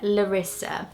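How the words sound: The name is said with an English pronunciation. This is how people in the UK say it. "whenever I've heard it, it's been Larissa"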